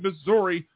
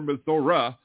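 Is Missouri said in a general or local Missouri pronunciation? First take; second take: general; local. First: It is said in a general pronunciation. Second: It is said in a local Missouri pronunciation.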